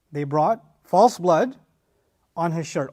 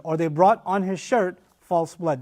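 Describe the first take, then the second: First: Slow, weighted "false blood"; emphasis on false blood. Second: "false blood" placed last and slow; reordered, slow. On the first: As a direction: lean on "false" with a rise. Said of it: "is the actual phrase". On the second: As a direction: linger on "brought" then "false blood". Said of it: "the literal reading". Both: Shown as a demonstration.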